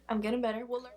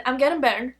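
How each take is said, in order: First: Much softer, half to herself; quiet repeat. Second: Said in the usual way. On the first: Shown as a demonstration. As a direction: echo it quietly under the breath.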